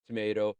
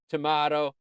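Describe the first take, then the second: First: "Tomato" said tuh-MAY-toh. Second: "tomato" said tuh-MAH-toh. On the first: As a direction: give "Tomato" a long AY in the middle. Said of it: "You say tomato". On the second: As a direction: give "tomato" a broad AH in the middle. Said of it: "I say tomato". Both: Shown as a demonstration.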